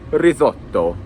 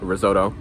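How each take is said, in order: First: It is said with an Italian accent. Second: It is said with an American accent. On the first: The speaker calls it right. "instead of risotto" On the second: The speaker calls it wrong. "I'm saying risotto"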